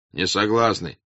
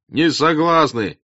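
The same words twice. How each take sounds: First: Short, restrained "Не согласны"; first voice of refusal, only a little raised; peasant's refusal. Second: High, loud, drawn-out "не согласны"; peasant's loud refusal. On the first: Peasant in the crowd refuses, fairly restrained. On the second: Second peasant echoes the refusal, loud and slow. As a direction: stretch the refusal out over the crowd. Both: Acted. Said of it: "раздалось в толпе с разных сторон".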